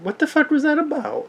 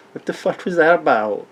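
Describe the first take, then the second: First: Much higher, exasperated disbelief; squeaky baffled repeat; mock bewildered. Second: Said in the usual way. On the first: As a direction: throw it up high like you can't believe it. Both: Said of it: "I'm like".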